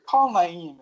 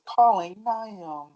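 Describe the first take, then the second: First: "Naeem" as na-EEM, long second vowel; "Naeem" with stress on the second syllable; own pronunciation. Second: "Naeem" as NIGH-um, drawn out slowly; "Naeem" with a swallowed second vowel; Siri's mispronunciation. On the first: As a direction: give the command with "Naeem" ending in a long EEM. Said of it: "when I say". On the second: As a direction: answer slowly like Siri, mangling "Naeem". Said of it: "and it says". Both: Retold or imitated.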